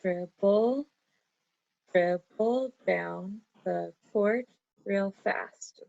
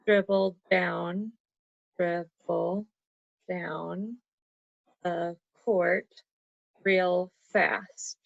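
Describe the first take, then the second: First: Slow, dribble held apart, then the line beat by beat; counting again. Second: Slow, each beat of dribble down the court set apart; syllable counting. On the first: Teacher recounting the haiku line to check syllables. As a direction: count it out deliberately. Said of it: "I'm gonna count that again". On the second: Teacher counting out a haiku line for Caden. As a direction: tap out the beats slowly. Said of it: "So you could say". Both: Shown as a demonstration.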